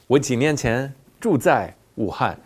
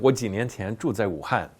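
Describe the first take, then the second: First: The sentence is broken into separate chunks. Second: The sentence flows without breaks. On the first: "They break it up" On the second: "Instead of"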